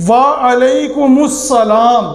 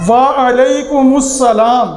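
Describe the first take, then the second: Both takes have the same delivery.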